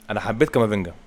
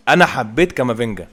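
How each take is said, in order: First: Said in the usual way. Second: Excited praise. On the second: Real, not acted. Gamer repeating praise, louder.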